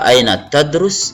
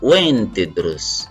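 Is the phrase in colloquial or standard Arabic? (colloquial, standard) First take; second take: standard; colloquial. First: It is said in formal standard Arabic. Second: It is said in everyday colloquial Arabic. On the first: "Kalau Fusha" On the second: "kalau Amia"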